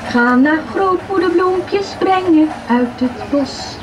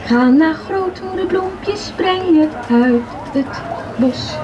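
Both takes have the same delivery.

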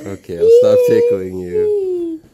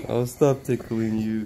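First: High, loud, laughing squeal. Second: Said in the usual way. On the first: Real, not acted. Laughing squeal while tickling.

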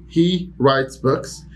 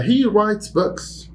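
First: Very slow level repeat; slow plain repetition. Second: High, slow, "he" stressed; high model sentence. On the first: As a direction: say it again slowly. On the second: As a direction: model it brightly for learners. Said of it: "teacher demo". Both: Shown as a demonstration.

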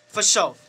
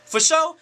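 First: "sure" falling at the end; settled agreement. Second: "sure" lifted high as a question; questioning check. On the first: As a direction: answer "For sure" with a closing fall. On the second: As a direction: ask "For sure?" with a sharp rise. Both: Retold or imitated. Retold check and agreement.

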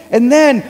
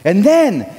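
Both takes have the same delivery.

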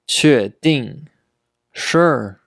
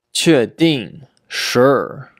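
Both takes have the same delivery.

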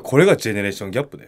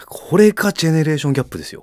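First: が stressed, rising at the end. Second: これ stressed, falling at the end. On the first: Correcting his co-host's version, stress on が. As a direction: hit が and rise, said fast. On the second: Declaring a catchphrase to his co-host, stress on これ. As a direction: punch これ, then fast and falling. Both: Shown as a demonstration. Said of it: "いや、違う。".

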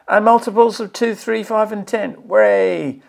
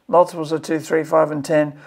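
First: Higher-pitched, celebrating each number; pleased, lifted voice with a little cheer; delighted cheer. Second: Said in the usual way. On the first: Real, not acted. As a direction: read it out like good news, ending in a hooray. Cheers at content he likes.

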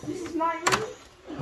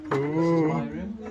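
First: High, slow, drawn-out delight; proudly showing off the room in a high sing-song. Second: Said in the usual way. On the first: Pretend. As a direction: sing it out high like a happy child. Arriving in hotel room, repeats it.

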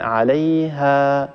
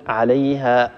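First: عليها with the final alif stretched and slowly dying away; fading madd, correct. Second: عليها ended with a hamza catch; wrong glottal stop. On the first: Teacher showing the correct stop, sound fading slowly. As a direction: breathe out the end of عليها until it vanishes. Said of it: "يتخامد الصوت ويتلاشى شيئا فشيئا". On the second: Teacher showing the mistaken stop with an added hamza. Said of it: "هذا خطأ". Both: Shown as a demonstration.

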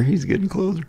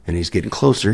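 First: High mock-panicked squeal; comic high-pitched panic; nervous squeak. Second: Said in the usual way. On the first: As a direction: squeak it as dread closes in. Nervous retelling as he approaches.

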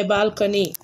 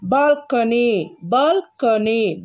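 First: Said in the usual way. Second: Each syllable drawn out slowly; slow, careful dictation. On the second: Shown as a demonstration. Teacher reads balcony slowly so pupils can write. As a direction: spell it out slowly for the class to copy. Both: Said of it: "pronounce after me".

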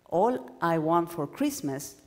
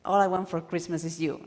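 First: "All I want for Christmas," said slowly, then a held pause; slow down and stop after "Christmas". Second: Said in the usual way. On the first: Shown as a demonstration. Teacher showing students a pause before the main thing. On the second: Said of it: "No, it's a new quote in this case".

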